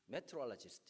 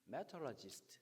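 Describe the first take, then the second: First: It has a Korean accent with high, lively pitch. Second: The same.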